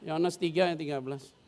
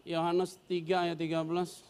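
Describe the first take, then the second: First: Said in the usual way. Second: Slow, drawn-out reference; carefully spelled-out Bible reference; slow, careful announcement. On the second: Shown as a demonstration. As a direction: read it out slowly and clearly. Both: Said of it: "sorry, sorry".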